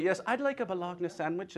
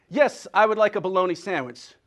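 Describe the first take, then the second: First: Bologna read literally as bah-LOG-nuh; spelled-out pronunciation. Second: Said in the usual way. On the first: Acted. Newcomer from Germany ordering a sandwich, bologna as bah-LOG-nuh. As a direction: softly order it, Bologna with a sounded g. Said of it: "That's when I read that".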